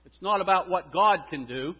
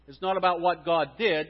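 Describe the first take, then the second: First: God and can do lifted, rising at the end; stress on can do. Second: Did hit hard, falling at the end; stress on did. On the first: Pastor contrasting what God can do. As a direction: lean on can do. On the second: Pastor contrasting what God did. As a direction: land on did. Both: Shown as a demonstration.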